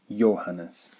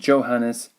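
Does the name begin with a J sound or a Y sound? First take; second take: Y sound; J sound. First: It begins with a Y sound. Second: It begins with an English J sound. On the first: The speaker calls it right. "but Johannes" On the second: The speaker calls it wrong. "The J is not Johannes"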